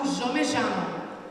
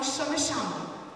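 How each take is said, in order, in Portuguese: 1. É falado com sotaque do norte da Argentina. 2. É falado com sotaque de Buenos Aires. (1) "Mais pro norte falam" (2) "na parte de Buenos Aires falam"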